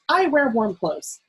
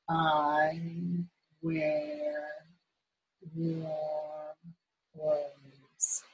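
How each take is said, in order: First: The sentence is read at a fast speed. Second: The sentence is read at a slow speed. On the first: "Let's read it fast" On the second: "Let's read it slow"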